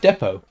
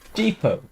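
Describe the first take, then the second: First: The word has a British pronunciation. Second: The word has an American pronunciation. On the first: "We pronounce it depot" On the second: "We do not pronounce D E P O T"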